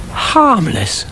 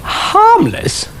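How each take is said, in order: First: High, disbelieving question; incredulous echo. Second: Very high, scoffing with a laugh; mocking laugh. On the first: Acted. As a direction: repeat it as if you can't believe it. Dougal echoes, incredulous. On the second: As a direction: laugh the word off in scorn.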